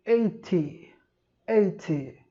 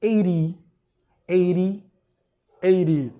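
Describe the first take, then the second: First: Eighty with a crisp T, British style. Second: Eighty with a flapped T, like eidy, said louder; American eighty. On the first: Teacher demos the British eighty to students, clear T. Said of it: "O oitenta no inglês britânico". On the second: Teacher demos the American eighty, louder, flapped T. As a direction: say eighty with a quick tap, a little louder. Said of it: "Já no inglês americano". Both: Shown as a demonstration.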